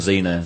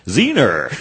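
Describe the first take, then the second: First: The name ends in a plain vowel, no R. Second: The name ends with an added R sound.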